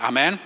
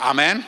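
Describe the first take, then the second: First: Said in the usual way. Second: A louder, fuller Amen. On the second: Shown as a demonstration. Preacher asks the congregation for a louder Amen. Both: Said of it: "Oh, ist zu leise".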